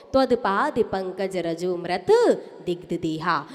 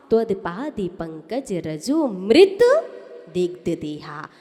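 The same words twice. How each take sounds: First: रजो मृत read as two words, so that मृत means dead; रजो मृत split apart in a low recitation; the usual wrong reading. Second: रजोमृत read as one word, so that it means nectar; रजोमृत joined together as a single word; the correct reading. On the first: Teacher showing students their wrong reading of रजो मृत, said as two words. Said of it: "आप पढ़ते हो". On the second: Teacher modelling the correct reading of रजोमृत, as one word. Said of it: "अब आपको पढ़ना कैसे था". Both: Shown as a demonstration.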